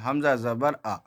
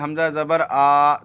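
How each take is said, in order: First: The final vowel is short and even. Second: The final vowel is stretched out long. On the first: The speaker calls it right. "एकदम normal" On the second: The speaker calls it wrong. "ये सही नहीं होगा, क्योंकि ... जल्दी पढ़े, थोड़ा भी ना खींचे"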